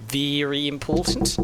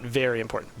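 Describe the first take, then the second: First: Slow, drawn-out put-on British accent "Very important" with a rising end; hammy British accent, slowed down on "important"; mock British accent. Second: Said in the usual way. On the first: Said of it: "that's not a British accent".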